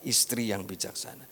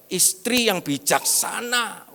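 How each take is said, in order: First: Said in the usual way. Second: Istri yang bijaksana drawn out slowly, higher, stressing istri; pastor's preaching emphasis. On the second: Retold or imitated. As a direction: quote the pastor's sermon title slowly and pointedly. (Istri yang bijaksana diucapkan pelan dan tinggi, menekan kata istri) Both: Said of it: "Bapak Gembala khotbah".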